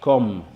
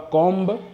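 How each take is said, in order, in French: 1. On n'entend aucun son b à la fin. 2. On entend un son b à la fin. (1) "mais comme" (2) "Ne prononcez pas combe"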